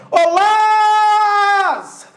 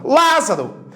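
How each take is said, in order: First: High, very slow call holding "Lá" in "Lázaro"; calling out the name. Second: Said in the usual way. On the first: Shown as a demonstration. Teacher showing the tonic syllable of Lázaro, calling out. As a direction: holler it with a long first syllable. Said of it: "Demora mais tempo sendo chamada".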